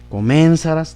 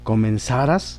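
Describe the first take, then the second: First: The stress is on the third syllable, sa. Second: The stress is on the last syllable, ras. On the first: The speaker calls it wrong. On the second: The speaker calls it right.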